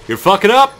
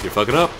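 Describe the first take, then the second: First: You're fucking up! shouted much higher and louder; high, loud yell. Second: Said in the usual way. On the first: Shown as a demonstration. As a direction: scream it at the screen. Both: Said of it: "repeats the line louder".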